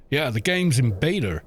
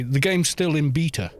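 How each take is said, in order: First: BETA as "BAY-der" within the sentence; American pronunciation. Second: BETA as "BEE-tuh" within the sentence; British pronunciation. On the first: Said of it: "So Americans say beta". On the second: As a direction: say beta with a long ee and crisp T. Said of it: "Whereas we would say". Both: Shown as a demonstration.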